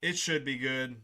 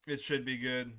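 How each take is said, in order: Both takes have the same delivery.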